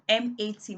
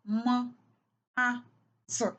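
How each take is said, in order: First: Each letter is said by its alphabet name. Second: Each letter is said as its speech sound. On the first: The speaker calls it wrong. "instead of saying M A T" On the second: The speaker calls it right. "blending the sounds m, a, t"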